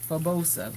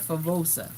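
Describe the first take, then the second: First: The middle consonant is a B sound. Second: The middle consonant is a V sound. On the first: The speaker calls it wrong. "I usually pronounce the V as a B as in Spanish" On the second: The speaker calls it right. "I said it right this time"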